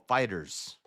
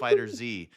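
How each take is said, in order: First: The ending is said as a plain S sound. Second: The ending is said as the separate letter Z. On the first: The speaker calls it right. "The game is called Fighters" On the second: The speaker calls it wrong. "they're actually saying it wrong"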